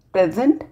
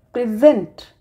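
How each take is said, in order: First: PREsent, the gift; stress on first syllable. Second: PreSENT, to show; stress on second syllable. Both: Shown as a demonstration. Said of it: "stress or accent changes the meaning".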